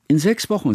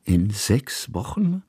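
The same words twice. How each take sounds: First: Put-on girl's voice. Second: Slow, doubting echo of the words; puzzled repeat. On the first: Girl answers the question. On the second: Kusmin echoes the girl, slowly and in doubt. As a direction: draw it out as a disbelieving question. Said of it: "wiederholte Kusmin". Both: A narrator's reading.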